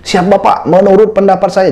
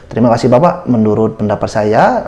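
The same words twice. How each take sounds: First: Higher, stiff soldier-style reply; military style. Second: Said in the usual way. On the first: Shown as a demonstration. Candidate answering the interviewer like a soldier, stiff military reply. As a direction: answer like a recruit reporting to an officer. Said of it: "seperti militer". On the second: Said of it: "berbicara seperti biasa".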